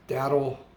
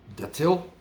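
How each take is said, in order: First: The middle consonant sounds like a soft d. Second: The middle consonant sounds like a crisp t. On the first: Other people say it this way. "I've heard people pronounce it daddle" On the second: The speaker always says it this way. "I always pronounced it datil"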